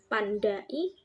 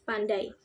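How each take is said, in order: First: The word breaks between the a and the i. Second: The a and i stay together in one syllable. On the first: The speaker calls it wrong. "Jadi bukan pandai" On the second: The speaker calls it right. "tapi pandai"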